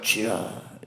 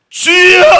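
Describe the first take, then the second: First: It is said plainly and calmly. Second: It is loudly cried out with force.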